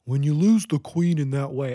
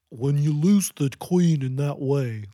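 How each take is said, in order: First: Lightly voiced goofy old man; goofy male voice. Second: Lightly voiced goofy old man, slow; slow goofy male voice. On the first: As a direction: imitate the narrator's silly man voice. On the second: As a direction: drag it out like a goofy old guy. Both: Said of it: "she was talking like that".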